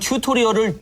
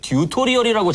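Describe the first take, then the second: First: The word begins with an aspirated t sound. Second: The word begins with a d sound. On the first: The speaker calls it right. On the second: The speaker calls it wrong.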